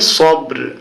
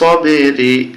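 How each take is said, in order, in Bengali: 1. শব্দটি ব্যঞ্জনবর্ণে শেষ হয়, কোনো স্বরধ্বনি ছাড়া। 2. শব্দটি একটি হ্রস্ব i স্বরধ্বনি দিয়ে শেষ হয়। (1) "কিন্তু এখানে থামলে উচ্চারণ হবে সব্র" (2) "রজের রি সবেরি"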